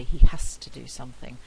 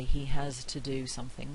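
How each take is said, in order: First: "has to" as "hass to", voiceless s. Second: "has to" with a voiced z, careful. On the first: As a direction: devoice it: "has to" with a hissed s. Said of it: "with a voiceless fricative". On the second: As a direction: say "has to" with a clear buzzing z. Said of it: "we don't usually say". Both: Shown as a demonstration.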